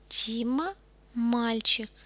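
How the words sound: It is said with statement intonation. The speaker is confirming that Dima is a boy. "и когда отвечаю на них"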